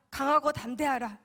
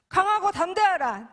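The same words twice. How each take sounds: First: Said in the usual way. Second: Loud, higher commanding call; commanding proclamation. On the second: Retold or imitated. Preacher voicing God's command, loud and commanding. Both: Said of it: "계속 저에게 말씀하셨어요".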